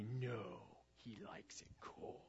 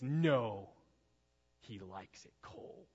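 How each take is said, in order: First: Put-on slow, eerie whisper of a possessed boy; chilling possessed-child whisper; creepy whisper. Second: Put-on a faint, hushed creepy child's line, slow at the end; a hint of a creepy possessed boy; creepy kid voice. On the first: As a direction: breathe it out like something's wrong with him. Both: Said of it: "is like that creepy".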